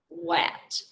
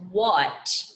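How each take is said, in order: First: The vowel sounds like the one in cat. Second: The vowel sounds like the one in cup. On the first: The speaker calls it wrong. "if you were blending that word, you would do wa, ha, at, wat" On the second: The speaker calls it right. "It's actually pronounced what"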